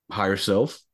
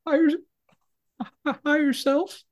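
First: Said in the usual way. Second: High, whimpering imitation of sobbing; mock crying. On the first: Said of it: "He was like". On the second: Shot prisoner answering his interrogator, mock crying, very high. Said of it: "And the guy crying goes".

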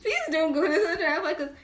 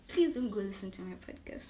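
First: Louder, laughing mock plea. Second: Said in the usual way. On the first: Guest retelling a plea to friends, laughing. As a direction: beg through a laugh.

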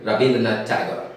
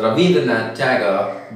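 First: "Rabindranath" with b in the middle, not v. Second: "Rabindranath" said as Ravindranath, with v; v sound. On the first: Teacher shows what the name became, "Rabindranath" with b for v. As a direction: say "Rabindranath" with a clear b. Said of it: "became Rabindranath Tagore". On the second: Teacher gives the original name, "Rabindranath" with v for b. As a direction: put a v in the middle of "Rabindranath". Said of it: "unable to produce the sound V". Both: Shown as a demonstration.

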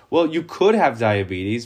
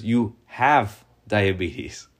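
First: Could stressed in you could have diabetes, rising on could; possibility stressed. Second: Slow and final, weight on have; stress on have. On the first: Preacher contrasting maybe having diabetes with having it, stress on could. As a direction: lean on could, light and open, rising. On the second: Preacher contrasting maybe having diabetes with having it, slow stress on have. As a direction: have pressed down in You have diabetes, half speed and falling. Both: Shown as a demonstration.

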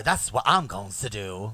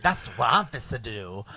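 First: Said in the usual way. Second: Mock British accent, clipped and posh-ish. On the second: Shown as a demonstration. Host contrasts British and American speech, mock British accent. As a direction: say it like an English person would. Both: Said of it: "you compare that with a British accent".

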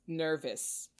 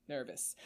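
First: Said in the usual way. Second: Nervous muttered softer, dropping away; Nervous, softer, to himself; quiet repeat. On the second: Real, not acted. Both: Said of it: "I'm freaking out, slightly".

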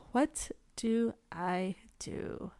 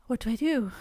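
First: Slow, softer, word-by-word question; slow dilemma. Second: Said in the usual way. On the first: Retold or imitated. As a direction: space out every word of "What do I do?". Repeats dilemma slowly, word by word.

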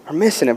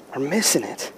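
First: Said in the usual way. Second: Hushed. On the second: Shown as a demonstration.

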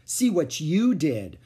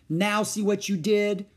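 First: Slow, louder retort; contradicting. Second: Blaming. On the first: Beezus contradicting Wayne. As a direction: throw it right back. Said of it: "contradicted Beezus". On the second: Boy blaming Ramona. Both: A narrator's reading.

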